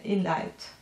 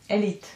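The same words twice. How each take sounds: First: "elite" misread as "ee-light"; "elite" with an eye vowel in the last syllable; mispronounced vowel. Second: "elite" said as "ay-leet"; "elite" with an ee vowel in the last syllable; self-corrected pronunciation. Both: Real, not acted. Self-correcting a misread word.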